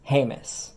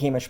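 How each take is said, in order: First: The name is said the modern way. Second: The name is said the traditional way. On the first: This is the form in current general use. "the modern pronunciation" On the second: This is the older form used by the tribe. "the traditional pronunciation"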